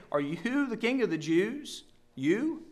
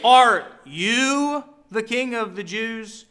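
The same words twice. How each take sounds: First: Much softer, scornful "you" with a rising "You?"; mocking stress on you. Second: "you" stressed, slow, scornful question; slow, with a scornful weight on "you"; stress on you, mocking. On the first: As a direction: hush it and sneer the word "you". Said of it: "let me just draw attention to". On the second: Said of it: "I try to emphasize that with, with my voice". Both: Shown as a demonstration.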